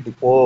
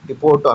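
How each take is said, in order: First: "డిపో" with a silent t; correct pronunciation. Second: "డిపోట్" with the final t sounded; wrong pronunciation. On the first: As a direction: end "డిపో" on an open o, no t. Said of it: "T ఉంటుంది కానీ డిపో అనాలి". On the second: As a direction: say "డిపోట్" ending on an audible t. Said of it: "డిపోట్ అనకూడదండి". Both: Shown as a demonstration.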